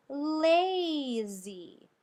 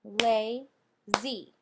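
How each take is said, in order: First: "lazy" drawn out very slowly, the long A held in "la"; stretched spelling word. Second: "Lazy" split into two beats, "la" and "zy", each hit a little louder; clapped syllables. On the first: Teacher to students, "lazy" drawn out slowly with a long A. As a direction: lean on the open "la" in "lazy" slowly so the A says its name. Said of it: "that makes a long A sound". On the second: Teacher clapping out "Lazy" for the class, two separate loud beats. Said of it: "let's clap it out and see why". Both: Shown as a demonstration.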